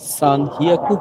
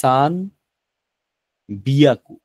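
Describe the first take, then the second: First: The second word begins with an h sound. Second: The second word begins with a b sound. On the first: The speaker calls it wrong. "সান হিয়াকু হবে না" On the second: The speaker calls it right. "এটা হবে যে সান বিয়াকু"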